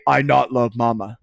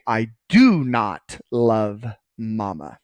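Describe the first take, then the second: First: Lightly voiced caveman, "not" right after "I"; a hint of caveman in a plain, blunt line; caveman talk. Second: "do" drawn out and stressed, each word slow and separate. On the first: Teacher shows students what we don't say, mild caveman talk. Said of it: "That's caveman talk". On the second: Teacher models the correct sentence for students, slow stress on "do". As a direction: lean on "do", then slowly place "not love mama". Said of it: "So we say". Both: Shown as a demonstration.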